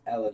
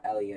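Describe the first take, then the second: First: Ella in two syllables, EL-uh; corrected name reading Ella. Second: Elia with an extra "ee-uh" ending; rejected name reading Elia. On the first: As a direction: say Ella without the "ee" sound. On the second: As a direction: say Elia in three syllables, EL-ee-uh. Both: Shown as a demonstration. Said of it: "It's not Elia, it's Ella".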